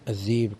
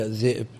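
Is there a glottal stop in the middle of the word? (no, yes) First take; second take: no; yes. First: The middle has a long vowel, no stop. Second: The middle has a glottal stop. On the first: "قد تخفف مثل الذئب" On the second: "كثير من الكلمات المهموزة تخفف"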